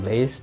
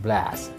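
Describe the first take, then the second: First: The vowel is a pure e sound. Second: The vowel lies between an a and an e. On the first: The speaker calls it wrong. "bukan blaze" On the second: The speaker calls it right. "Antara huruf E dan A, ambil tengah-tengah A"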